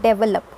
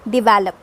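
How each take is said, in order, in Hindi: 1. ज़ोर पहले अक्षर पर है। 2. ज़ोर दूसरे अक्षर पर है। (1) "this इज़ not develop" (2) "the stress इज on the second syllable"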